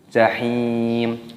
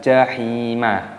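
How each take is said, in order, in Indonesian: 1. Kata ini berakhir pada m tertutup, tanpa vokal. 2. Huruf m di akhir diikuti vokal tambahan. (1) "mimnya dibaca mati" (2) "jangan dibaca jahimah"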